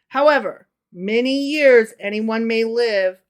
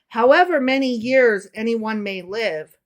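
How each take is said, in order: First: There is a pause after "however". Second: It runs on with no pause after "however".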